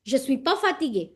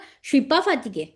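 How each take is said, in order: First: Je and suis are said as separate words. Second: Je and suis blend into one sound. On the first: This is an intermediate level of speaking. "Intermediate level पे हम बोलेंगे" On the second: This is how a very advanced speaker talks. "je और suis इकट्ठा बन गया"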